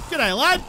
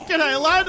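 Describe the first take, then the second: First: Said in the usual way. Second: Brighter, higher repeat of the greeting; louder cheery greeting. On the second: Real, not acted. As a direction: call it out again with more gusto.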